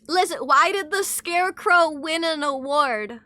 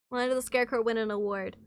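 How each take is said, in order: First: Animated, projected question; emphatic joke setup. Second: Said in the usual way. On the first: Pretend. Streamer telling chat a dad joke, emphatic setup. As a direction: pitch the riddle out to the room.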